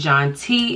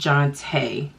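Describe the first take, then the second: First: The name ends with a plain 'tee' sound. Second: The name ends with a French-style 'tay' sound. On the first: The speaker calls it wrong. "instead of it being John T" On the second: The speaker calls it right. "it is Jonte. Bam"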